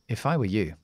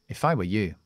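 First: The words are linked, with a weak short vowel. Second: The same.

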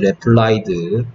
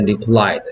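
First: The word is sounded out letter by letter. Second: The word is said with natural English pronunciation. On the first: "replied라고 외웠겠지" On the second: "발음할 땐 replied"

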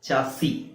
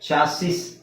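First: The word ends without any s sound. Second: The word ends with an audible s sound. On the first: "standard pronunciation" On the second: "ಚಾಸಿಸ್ ಅಂತಾನೆ ಹೇಳ್ತಾರೆ"

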